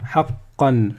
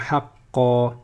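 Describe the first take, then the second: First: The word ends with an n sound. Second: The word ends on an a vowel. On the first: The reader continues to the next word. "si je continue, eh bien je vais dire haqqan" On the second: The reader stops on this word. "On va dire haqqa... Ça c'est si je veux m'arrêter"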